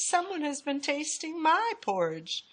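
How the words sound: It is said in a middle-sized voice.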